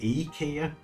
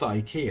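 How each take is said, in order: First: The first vowel sounds like 'ee'. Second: The first vowel sounds like 'eye'.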